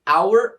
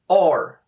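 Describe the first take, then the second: First: The word sounds like 'hour', with two vowel sounds. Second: The word sounds like 'or', with one vowel sound. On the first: "duas pronúncias" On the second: "Ambas estão corretas"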